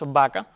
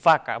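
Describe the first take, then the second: First: The first sound presses both lips together. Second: The first sound uses upper lip on teeth. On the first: The speaker calls it right. "Lo correcto y lo adecuado" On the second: The speaker calls it wrong. "no debe pronunciarse la V como labiodental"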